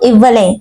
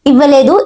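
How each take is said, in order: First: The final syllable 'du' is dropped entirely. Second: The final syllable 'du' is pronounced fully. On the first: This is the colloquial spoken form. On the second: This is the standard form.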